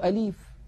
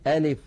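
First: The i vowel after the l is stretched long. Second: The vowel after the l leans toward e. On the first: "يمطون كسرة اللام قليلا" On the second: "ينطقونها بحركة ممالة"

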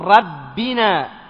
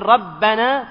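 First: The vowel after the double b is i. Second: The vowel after the double b is a. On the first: The word substitutes for the pronoun after a preposition. "فيكون هنا مجرورا فتقول ربنا" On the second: The word is the object of an implied verb. "بدل ما تقول ربنا"

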